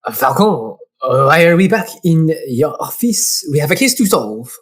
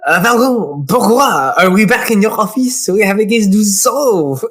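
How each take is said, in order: First: Lightly played French assistant, questioning; understated French accent. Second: Put-on fuller, livelier French accent; exaggerated French accent, insistent. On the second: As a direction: ham up the French assistant. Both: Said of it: "He's gonna be French".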